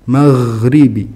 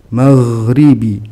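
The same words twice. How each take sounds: The two takes are said the same way.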